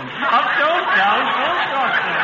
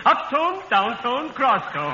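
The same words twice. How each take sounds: First: Tones repeated through a chuckle; laughing tones demo. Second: Up, down, cross tones. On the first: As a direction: run the tones again while laughing. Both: Shown as a demonstration. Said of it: "the important thing in public speaking is the proper tone".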